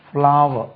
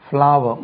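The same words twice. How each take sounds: Both takes have the same delivery.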